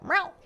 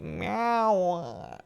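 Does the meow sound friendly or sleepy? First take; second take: friendly; sleepy. First: The meow sounds sweet and friendly. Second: The meow sounds tired and sleepy.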